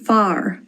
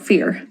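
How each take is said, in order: First: It sounds like 'far', the Irish reading. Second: It sounds like English 'fear'. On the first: The speaker calls it right. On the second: The speaker calls it wrong.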